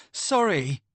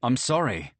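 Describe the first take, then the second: First: High, scornful mimicking of the apology; a higher, sneering repeat of the apology; mocking echo. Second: Said in the usual way. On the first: A narrator's reading. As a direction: throw his own word back at him with contempt. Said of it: "snarl in anger".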